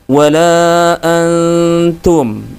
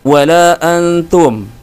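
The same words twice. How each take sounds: First: The n sound is softened and held a little. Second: The n sound passes quickly without being held. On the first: The speaker calls it right. "ditahan dulu, ya, agak lama sedikit" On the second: The speaker calls it wrong. "Langsung dibaca wala antum, ya, tidak ditahan dan kurang samar"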